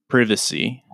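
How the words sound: It is said the way British English says it. "That's something you would hear in British English"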